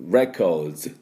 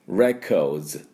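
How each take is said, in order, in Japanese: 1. 語末のDとSは、つなげて言います。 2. 語末のDとSは、つなげて言います。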